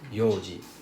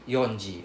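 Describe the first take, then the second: First: It begins with yo, with no n sound. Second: It begins with yon, with an n sound. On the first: The speaker calls it right. "It's read as yoji" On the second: The speaker calls it wrong. "It's not read as yonji"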